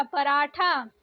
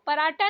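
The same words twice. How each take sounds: First: पराठा said "paraatha", aspirated; breath puff on t of पराठा; correct pronunciation. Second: पराठा said "paraata", plain t; no puff on t of पराठा; wrong pronunciation. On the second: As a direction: say पराठा with hard unaspirated t. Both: Shown as a demonstration. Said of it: "पराठा नहीं होता".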